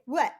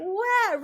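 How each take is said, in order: First: Short French "What", an open vowel; French accent. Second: High, blurted mock-French "What"; loud French accent. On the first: Shown as a demonstration. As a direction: say a quick French ouais. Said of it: "it's like". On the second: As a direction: belt out the French ouais, pitched up. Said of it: "Really loud".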